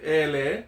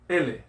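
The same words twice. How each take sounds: First: The first vowel is drawn out long. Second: The first vowel is short. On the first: The speaker calls it wrong. "You don't say ele. There's no kahako or there's no elongated uh, mark" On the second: The speaker calls it right. "So you say ele"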